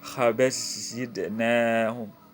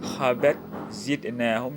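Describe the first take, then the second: First: The t merges into the following z. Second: The t is pronounced separately before z.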